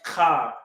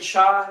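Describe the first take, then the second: First: It starts with a throaty k sound. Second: It starts with a ch sound as in chance. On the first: The speaker calls it right. "it's actually pronounced ka, almost like a K and an H" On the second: The speaker calls it wrong. "You don't say cha"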